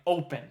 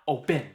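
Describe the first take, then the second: First: The stress is on the first syllable. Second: The stress is on the second syllable. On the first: The speaker calls it right. "we're saying open" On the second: The speaker calls it wrong. "not open"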